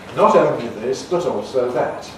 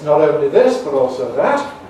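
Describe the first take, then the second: First: The T sounds are crisp voiceless tongue-tip stops. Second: The T sounds are voiced, soft like a D. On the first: "like in my careful speech, those T sounds are voiceless alveolar plosives" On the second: "it becomes voice"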